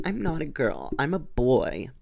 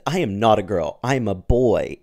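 First: Put-on lightly pitched up like a shy boy; gentle high-pitched voice. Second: Put-on louder, forceful boy's protest, pitch unchanged; boy insisting loudly. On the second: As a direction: push it out as a firm denial, not high. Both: A narrator's reading. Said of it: "in a gentle, high-pitched voice".

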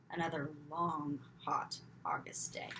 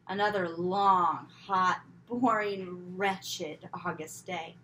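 First: Weary sigh. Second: Slow, louder, stretching each word in misery; drawn-out complaint. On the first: Repeated weary line. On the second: Girl groaning about another dull hot day, drawn out slowly. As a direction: drag it out like a groaning child. Exaggerated weary repeat. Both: A narrator's reading.

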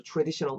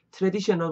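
First: Traditional starting like 'chu'; 'chu' sound. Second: Traditional with a plain T-R start; overly literal pronunciation. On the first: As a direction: say traditional as chu-raditional. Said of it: "티아 사운드 약간 추 정도로". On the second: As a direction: say traditional as 'teu-re-di-syeo-nal'. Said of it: "traditional 말고 traditional". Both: Shown as a demonstration.

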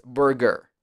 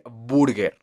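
First: Burger with a throaty English er; correct English pronunciation. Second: Burger with a Spanish u and tapped r; wrong pronunciation. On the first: Teacher correcting beginners, English-sounding burger. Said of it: "ese sonido tan atrapado en la garganta". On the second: Teacher showing beginners' mistake, mispronounced burger. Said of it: "y no es burger". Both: Shown as a demonstration.

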